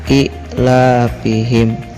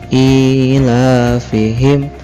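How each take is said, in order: First: The vowel is cut short. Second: The vowel is held for two beats. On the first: The speaker calls it wrong. "jangan sampai pendekan ila fihim, salah itu ya" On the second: The speaker calls it right. "dibacanya di dua harokat"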